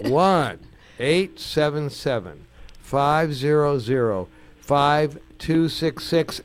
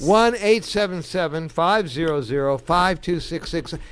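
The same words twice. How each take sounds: First: The number is said slowly. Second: The number is said fast.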